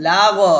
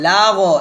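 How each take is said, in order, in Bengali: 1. শেষের gh ধ্বনিটি একটি প্রতিধ্বনিত ঝাঁকুনি দিয়ে শেষ হয়। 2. শেষের gh ধ্বনিটি একটি প্রতিধ্বনিত ঝাঁকুনি দিয়ে শেষ হয়।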